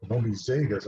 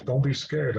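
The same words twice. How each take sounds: First: "Zegas" said as the spirit's own word, zay-gahs, stress on the first part; Indian-language word. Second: Said in the usual way. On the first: Retold or imitated. The lady spirit reassures the scared narrator, "Zegas" in her language. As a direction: gently repeat "Zegas" as the lady spirit spoke it, not English. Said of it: "she is speaking Indian". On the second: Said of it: "she leans forward and she says".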